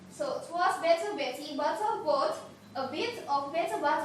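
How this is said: It is said in a British accent.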